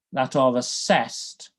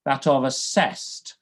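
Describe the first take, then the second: No difference in how they are said.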